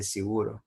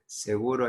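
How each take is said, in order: First: "seguro" said as "siguro", with the first e closed to i; vowel shifted e to i. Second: Said in the usual way. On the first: Shown as a demonstration. Teacher showing the class the vowel change in "seguro". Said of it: "hay gente que dice seguro". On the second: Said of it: "En vez de decir seguro".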